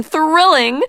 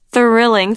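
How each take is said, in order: First: Thrilling! squealed much higher; delighted. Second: Delighted. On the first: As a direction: pitch thrilling! way up in glee. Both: A narrator's reading. Queen repeats word rising.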